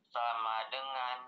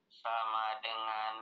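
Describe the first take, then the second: No difference in how they are said.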